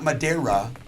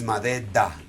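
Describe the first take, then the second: First: The final consonant sounds like an English r. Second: The final consonant sounds like a quick d. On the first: The speaker calls it wrong. "So it's not Madeira" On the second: The speaker calls it right. "the R at the end is more like a D"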